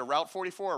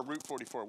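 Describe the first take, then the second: First: "Route" rhyming with out; route as "rowt". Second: "Route" rhyming with boot; route as "root". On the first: Preacher asks congregation which they say, "Route" said as rowt. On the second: Preacher asks congregation which they say, "Route" said as root. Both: Shown as a demonstration. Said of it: "Which one do y'all say".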